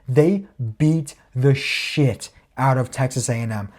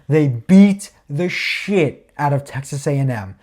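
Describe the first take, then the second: First: It is said at normal volume. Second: It is said more loudly.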